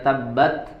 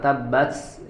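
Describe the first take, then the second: First: The final t is held and released cleanly. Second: The final t is released with an s-like hiss. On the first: The speaker calls it right. "harusnya tabbat yada" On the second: The speaker calls it wrong. "bercampur dengan huruf sin"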